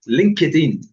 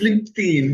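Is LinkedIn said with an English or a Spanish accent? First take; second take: Spanish; English. First: It is said with a Spanish accent. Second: It is said with an English accent. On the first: The speaker calls it wrong. "as my Spanish people uh, speakers like to say" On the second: The speaker calls it right. "it's LinkedIn"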